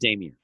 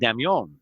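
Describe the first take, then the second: First: The name is said the ordinary English way. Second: The O is given a marked, accented European sound. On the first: It is the familiar everyday form of the name. "I got rid of the accent... and I pronounced it Damien" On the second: It makes the name sound foreign and fancy. "I had an accent over the O, so I pronounced it Damion"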